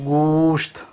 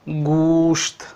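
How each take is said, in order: The two takes are said the same way.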